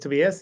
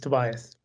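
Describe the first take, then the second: First: The name is said with a Swedish pronunciation. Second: The name is said with an English pronunciation. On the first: "It's Swedish pronunciation is Tobias" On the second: "Usually when I talk English, it's Tobias"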